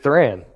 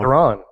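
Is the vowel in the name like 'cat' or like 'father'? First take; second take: cat; father. First: The vowel sounds like the 'a' in cat. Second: The vowel sounds like the 'a' in father. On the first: The speaker calls it wrong. "I have always said Thran" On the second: The speaker calls it right. "it says T H R A H N"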